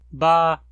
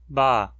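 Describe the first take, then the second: First: The syllable is said on a high tone. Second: The syllable is said on a low tone. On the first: It once ended in a glottal stop. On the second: It once ended in an aspiration.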